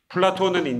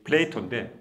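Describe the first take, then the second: First: It is said as Platon, Greek style. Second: It is said as Play-toe, English style. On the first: "그리스식 발음이고" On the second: "영어식 발음이"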